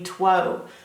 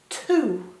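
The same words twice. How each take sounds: First: The word ends with a long 'oh' vowel. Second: The word ends with an 'oo' vowel. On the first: The speaker calls it wrong. "saying its name, the long O sound, O, which would be two" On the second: The speaker calls it right. "It sounds like two. You don't even hear the W"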